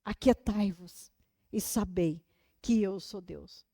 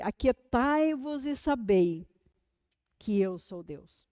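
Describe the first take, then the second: First: Quiet repeat. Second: Reverent quote. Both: Acted. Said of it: "uma versão que eu amo".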